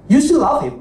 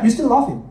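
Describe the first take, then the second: First: You still love him, with the weight on still; stress on still. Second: Love leaned on, still kept light; You still love him, with the weight on love; stress on love. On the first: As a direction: still leaned on, love kept light. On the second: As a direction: shift the weight onto the word love. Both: Shown as a demonstration.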